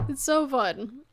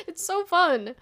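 First: Said in the usual way. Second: Excited, bright. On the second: Real, not acted.

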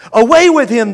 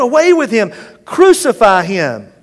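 First: Higher, louder yell; yelling crowd. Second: Higher, louder yell, slowing at the end; yelling crowd. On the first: The crowd rejecting Jesus, loud yell. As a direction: throw him out with your voice. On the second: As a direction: drag out the final demand. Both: Acted. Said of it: "they yelled".

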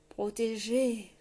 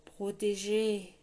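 First: Slow, croaked single word; croaking grey man. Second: Slow, rumbling word with otherworldly timbre; rumbling reproach. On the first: Grey man croaking his warning to the king. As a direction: croak it out slowly like a spectre. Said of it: "croassa l'homme gris". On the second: Grey man repeating his warning, rumbling reproach. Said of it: "répéta-t-il". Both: A narrator's reading.

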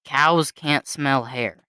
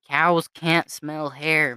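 First: Slow deadpan quote. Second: Slow deadpan repeat. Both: Retold or imitated. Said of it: "This was definitely me".

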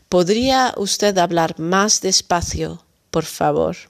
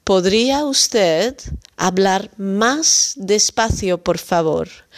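First: Said in the usual way. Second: Slow clear model. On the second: Shown as a demonstration. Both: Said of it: "dan kunt u wat langzamer spreken".

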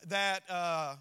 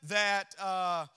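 Both takes have the same delivery.

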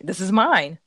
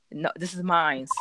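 First: Said in the usual way. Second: "mine's" with an s, slower; wrong mine's. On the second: Shown as a demonstration. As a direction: tack a z sound onto "mine's". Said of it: "you can't say mine's".

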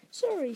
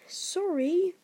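First: Quick, higher-pitched sorry; quick apology. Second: High, loud bark; indignant bark. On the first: Harry apologising to Hagrid, quickly. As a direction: apologise hastily. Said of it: "said Harry quickly". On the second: Hagrid throwing Harry's apology back, barking. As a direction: bark the word back in disbelief. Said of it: "barked Hagrid". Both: A narrator's reading.

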